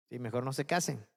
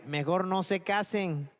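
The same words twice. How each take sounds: First: Said in the usual way. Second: Slow, weighty quote of Pablo; slow, emphatic Mejor no se casen; slow quoted advice. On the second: Retold or imitated. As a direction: lean on each word, slowly. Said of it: "Pablo les decía".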